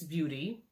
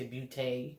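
First: Said in the usual way. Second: "beauté" ending in an "ay" sound; French-style beauty. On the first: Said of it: "I believe this is pronounced". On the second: Shown as a demonstration. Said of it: "Maybe people say beauté".

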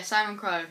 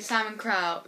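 First: "Crow" said with a long "o", as in go; settled "Crow" with an "oh" vowel; Crow rhyming with go. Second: "Crow" said with an "ow" vowel, as in cow; tentative "Crow" like "crau"; Crow rhyming with cow. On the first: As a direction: say Crow like the bird. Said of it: "Yeah, Simon Crow". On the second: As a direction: say Crow to rhyme with now. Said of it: "I think I pronounced it properly". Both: Shown as a demonstration.

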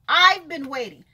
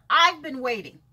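The two takes are said the same way.

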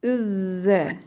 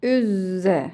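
First: ÜZZE with a lisped th-like z. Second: ÜZZE with a sharp buzzing z. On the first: Teacher showing children the difference, lisped z. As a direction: say "üzze", tongue tip toward the front teeth. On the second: Teacher contrasting for children, sharp z. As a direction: say "üzze" with a long z and no lisp. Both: Shown as a demonstration.

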